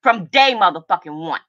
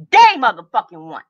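First: Said in the usual way. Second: "Day motherfucking one" repeated louder, hitting "Day". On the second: Real, not acted. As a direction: slam the word "Day" on the repeat. Angry livestream rant at former friend.

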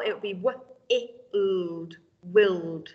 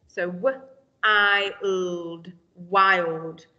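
First: "willed" said with a short i sound; wrong short vowel. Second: "wild" sounded out w, I, ld, with a long "eye" sound; long vowel i. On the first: Teacher showing the wrong short-vowel reading to pupils. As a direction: read "wild" wrongly as "willed". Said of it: "That's not right". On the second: Teacher sounding out the right word for pupils. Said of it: "that's a real word that we know". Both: Shown as a demonstration.

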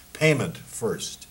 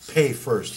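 First: Each word dragged out slowly and heavily; slow demand. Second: Louder, pitched-up barked order; loud demand. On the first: German guard to emigrants, slow firm demand. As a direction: make him wait on every syllable. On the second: German guard to the crowd, loud barked order. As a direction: shout it so nobody can miss it. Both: Acted.

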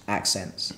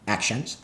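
First: Said in the usual way. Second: "accents" said with a sh, like "ak-shents"; mispronounced "accents". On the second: Shown as a demonstration. Tripping over the word mid-argument, "accents" as "ak-shents". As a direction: slur the middle of "accents" into sh. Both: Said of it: "the main characters with English accents".

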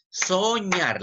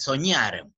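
First: "Soñar" stretched out, higher pitched; acento en última sílaba. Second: Said in the usual way. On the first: Shown as a demonstration. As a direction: say "Soñar" drawn out, demonstrating stress on "ñar". ("Soñar" alargado y más agudo, marcando "ñar") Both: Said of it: "La mayor fuerza de voz".

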